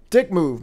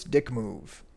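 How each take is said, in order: First: "dick move" punched louder, falling; louder jab. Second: "dick move" dropped quieter, falling; quiet repeat. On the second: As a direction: mutter "dick move" softly. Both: Real, not acted.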